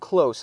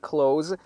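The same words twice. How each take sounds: First: The word ends with a hissing s sound. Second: The word ends with a buzzing z sound. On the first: The speaker calls it right. "Close هست" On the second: The speaker calls it wrong. "من اینو close دوستان تلفظ نمی کنم"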